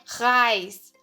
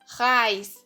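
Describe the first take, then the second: The two takes are said the same way.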